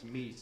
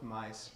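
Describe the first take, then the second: First: The vowel sounds like 'ee', as in 'mees'. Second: The vowel sounds like 'eye', as in 'mice'. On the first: The speaker calls it right. "It's Mies" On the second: The speaker calls it wrong. "it's not mice"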